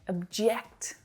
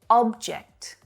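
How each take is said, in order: First: The stress is on the second syllable. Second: The stress is on the first syllable. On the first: To be opposed to something. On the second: A thing.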